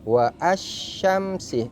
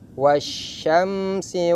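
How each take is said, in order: First: An extra separate 'a' is pronounced after 'wa'. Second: The 'wa' runs straight into 'syamsi'. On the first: The speaker calls it wrong. "tidak boleh dibaca" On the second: The speaker calls it right. "Cara membacanya"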